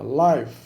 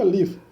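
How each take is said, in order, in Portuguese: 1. A vogal é longa. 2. A vogal é curta. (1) "tem vogal mais uh, comprida, né? Então longa" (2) "tem vogal breve"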